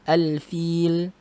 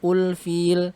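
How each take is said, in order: First: The word begins with an a vowel. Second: The word begins with a u vowel. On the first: The speaker calls it right. "Dibaca a" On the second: The speaker calls it wrong. "bukan ul-fil"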